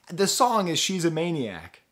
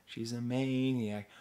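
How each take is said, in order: First: Louder, higher eureka; sudden recall. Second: Said in the usual way. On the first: Real, not acted. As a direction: blurt it out as it comes back.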